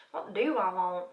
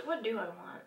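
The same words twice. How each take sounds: First: Southern vowels, stretched on "want"; Southern accent. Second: Said in the usual way. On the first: Real, not acted. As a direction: slip into a playful Southern accent. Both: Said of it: "I'm Southern today".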